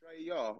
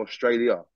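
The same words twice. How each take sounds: First: "Australia" cut down to "Straya"; shortened form. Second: Said in the usual way. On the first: Shown as a demonstration. Guest checking the slang word, "Australia" said short as "Straya". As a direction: say "Australia" with its first syllable dropped. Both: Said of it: "It was an abbreviation".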